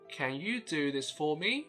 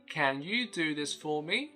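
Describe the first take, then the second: The two takes are said the same way.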